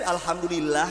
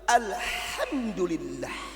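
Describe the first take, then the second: First: It is said plainly, in ordinary Indonesian style. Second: It is said with exaggerated Arabic pronunciation.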